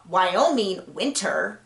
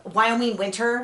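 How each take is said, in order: First: "Wyoming winter" slow and carefully separated; "Wyoming winter" said with slow, careful articulation; very deliberate. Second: Said in the usual way. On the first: Shown as a demonstration. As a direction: sound out "Wyoming winter" word by word to get past the tongue twister. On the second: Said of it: "I have to say".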